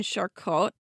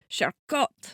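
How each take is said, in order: First: Said in the usual way. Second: Charcot with a French accent, final vowel like "ah". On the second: Shown as a demonstration. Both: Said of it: "That was my French accent".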